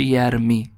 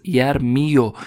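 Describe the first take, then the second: First: یرمی said "yar-MEE", ending on a long i; damma dropped. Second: یرمیو said "yar-MI-yo", ending in a short o; damma on final ya. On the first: Teacher showing the form after the rule, shortened "yarmi". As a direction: close یرمی on ee with no yo. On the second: Teacher showing the form before the rule, full "yarmiyo". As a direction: add a clear yo at the end of یرمیو. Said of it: "یا حرف آخر ضمه گرفته". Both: Shown as a demonstration.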